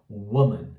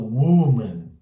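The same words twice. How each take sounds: First: The first vowel is lax and short. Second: The first vowel is tense and long. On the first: The speaker calls it right. "Ele é um pouquinho mais sutil" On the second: The speaker calls it wrong. "Eu não falo woman, né? Eu não jogo uma tensão ali"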